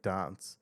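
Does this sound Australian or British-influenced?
British-influenced. It is said in a British-influenced, more formal accent. "I would say like dance"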